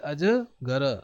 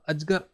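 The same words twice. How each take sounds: First: The final vowel sound is fully pronounced. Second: The final vowel sound is dropped. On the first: The speaker calls it right. "पूरा र हो गया जिसमें अ जुड़ा हुआ है" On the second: The speaker calls it wrong. "ऐसे नहीं छोड़ सकते"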